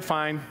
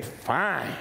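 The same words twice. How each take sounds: First: Curt fine. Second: Low cold fine. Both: Shown as a demonstration. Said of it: "Or you could say".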